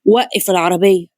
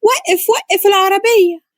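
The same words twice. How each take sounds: First: Low, level instruction to a driver; lower-pitched man's voice, no shouting; man's order. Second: High, drawn-out cry of alarm; screaming at driver. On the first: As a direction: drop the pitch and give a controlled order. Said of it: "عامر بص للسواق وقال". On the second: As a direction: cry out urgently, pitch way up. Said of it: "اتكلمت بصوت عالي وهي بتصرخ في السواق". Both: A narrator's reading.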